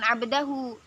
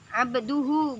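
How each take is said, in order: First: The vowel after 'abd' is an 'a' sound. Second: The vowel after 'abd' is a 'u' sound. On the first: The speaker calls it wrong. "bukan abdahu" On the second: The speaker calls it right. "ini Muhammadan abduhu"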